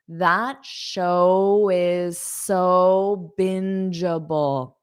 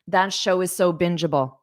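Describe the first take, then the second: First: It is said slowly and carefully. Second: It is said at a natural, quick speed. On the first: "let me slow it down" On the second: "That's how I would say it at a natural pace"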